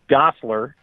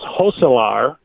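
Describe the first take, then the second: First: The name is said with an English pronunciation. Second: The name is said with a Dutch pronunciation. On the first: This is how most people say the name. The speaker calls it wrong. "and not Gosselaar" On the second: This is how the family name is originally said. The speaker calls it right. "I guess it's Dutch, it's Hosselaar"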